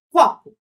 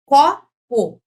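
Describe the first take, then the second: First: "Copo" forte e agudo no "CO"; chamando a palavra. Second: "Copo" separado, com "CO" bem forte; sílaba por sílaba. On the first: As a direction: chame "Copo", batendo na primeira sílaba. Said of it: "vou encontrar a sílaba tônica". ("Copo" em tom de chamado) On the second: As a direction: separe "Co-po", batendo alto no "Co". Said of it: "Essa é a tônica". ("Copo" dito em duas sílabas destacadas) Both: Shown as a demonstration.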